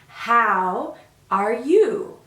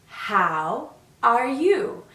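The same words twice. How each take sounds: The two takes are said the same way.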